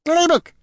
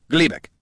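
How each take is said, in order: First: Very high, louder squeal; squeaky creature squire. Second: Lightly voiced, raised-pitch introduction; introducing a squire. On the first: Acted. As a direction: pipe up eagerly like a little creature. Squire chirps its own name. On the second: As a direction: present your squire by name. Gorm introduces his squire.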